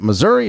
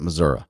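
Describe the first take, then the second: First: Missouri said with a final ee sound, mih-ZUR-ee; Missouri ending in ee. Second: Missouri said with a final uh sound, mih-ZUR-uh; Missouri ending in uh. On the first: Asking listeners which way, Missouri with a final ee. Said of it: "So is it Missouri". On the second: Asking listeners which way, Missouri with a final uh. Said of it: "or is it Missouri". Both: Shown as a demonstration.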